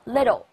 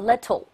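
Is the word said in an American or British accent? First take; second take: American; British. First: An American accent with the sounds less clearly said. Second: A British accent with every sound said clearly. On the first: "美国人读得不清楚，叫little" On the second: "英国人呢会读得非常清楚，叫little"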